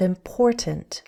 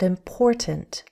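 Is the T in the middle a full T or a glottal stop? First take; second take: full T; full T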